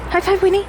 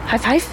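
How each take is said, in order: First: Sing-song high praise to the dog; high dog-talk voice. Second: Said in the usual way. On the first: Real, not acted. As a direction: lift it high and bright for the dog. Asking dog, pitch up.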